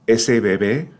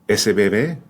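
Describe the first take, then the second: No difference in how they are said.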